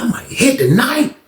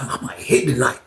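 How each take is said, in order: First: Higher, hopeful lift on hit; a hint of excitement on "hit"; eager musing. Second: Soft, low-key thought to himself; hushed private hope; quiet musing. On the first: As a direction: let the hope bubble up. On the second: Retold or imitated. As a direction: say it under your breath. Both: Musing to himself, two takes.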